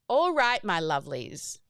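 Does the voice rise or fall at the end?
fall. The voice falls at the end.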